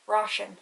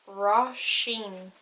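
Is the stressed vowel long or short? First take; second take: short; long. First: The i vowel is short and unemphasized. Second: The i vowel is long and emphasized. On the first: "If it didn't have the father on the I" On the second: "When I has father, it's like E"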